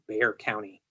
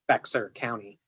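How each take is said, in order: First: The name is said like the word bear. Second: The name is said with an X sound. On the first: This is how Texans say it. "but in Texas, it is Bear County" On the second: This is how outsiders would say it. "if it was pronounced by people outside of Texas, it would be Bexar County"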